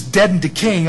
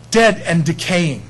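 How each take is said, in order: First: Said in the usual way. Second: Slow, each word of "Dead and decaying" weighted; slow emphasis. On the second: Shown as a demonstration. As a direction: drag out "Dead and decaying" for effect.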